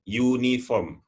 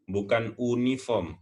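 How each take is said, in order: First: Uniform said yoo-ni-fom with a y sound; English Uniform starting yoo; correct uniform. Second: Uniform said oo-ni-form without the y sound; wrong take, uniform starting with a plain u. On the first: Teacher models the right Uniform. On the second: Teacher shows the Indonesian-style uniform as wrong. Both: Shown as a demonstration.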